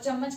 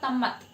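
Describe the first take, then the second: First: The word begins and ends with a ch sound. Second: The word begins and ends with a t sound.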